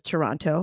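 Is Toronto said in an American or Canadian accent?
American. Toronto is said with an American accent. "as Americans say"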